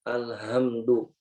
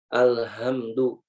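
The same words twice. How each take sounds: No difference in how they are said.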